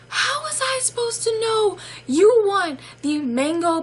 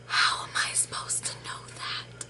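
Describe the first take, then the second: First: High-pitched mock incredulity; squealed disbelief at full voice; exasperated outburst. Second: Whispered disbelief; hushed, voiceless incredulity; exasperated whisper. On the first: Exasperated reaction, second take aloud. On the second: Retold or imitated. Exasperated reaction, first take whispered.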